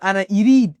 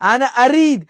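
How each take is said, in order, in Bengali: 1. ক্রিয়াটি 'i' স্বরধ্বনি দিয়ে শুরু। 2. ক্রিয়াটি 'a' স্বরধ্বনি দিয়ে শুরু। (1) "এই সবগুলো উচ্চারণ ভুল" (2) "সবসময় আদি হবে"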